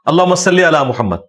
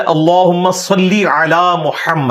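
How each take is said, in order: First: اللہم صلی علی محمد said casually, with light, short sounds; everyday unarticulated اللہم صلی علی محمد; colloquial majhool Arabic. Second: اللہم صلی علی محمد slow, with heavy consonants and long vowels; drawn-out, carefully articulated اللہم صلی علی محمد; correct maroof Arabic. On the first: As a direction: run اللہم صلی علی محمد together without tajweed. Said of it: "ان کی عربی بھی مجہول ہوتی ہے". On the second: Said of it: "یہ لفظ ہے". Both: Shown as a demonstration.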